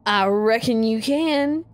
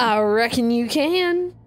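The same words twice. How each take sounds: First: Slow Southern reckon; Southern drawl. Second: Southern drawl held again. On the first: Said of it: "Yeah, reckon". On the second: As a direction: lean into the drawl. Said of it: "no G's on the end". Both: Acted.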